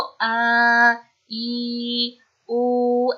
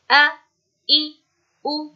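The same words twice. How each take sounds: First: आ, ई, उ dragged out slowly as the wrong reading; drawn out. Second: Short and quick. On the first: Teacher showing pupils how not to read the short vowels, drawn out. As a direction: stretch each of आ, ई, उ into a long, held vowel. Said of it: "ऐसे नहीं पढ़ना है". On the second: Teacher showing pupils how to read fatha, kasra, damma, short and quick. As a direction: say आ, ई, उ as short, separate vowels. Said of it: "ऐसे जल्दी पढ़ना है". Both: Shown as a demonstration.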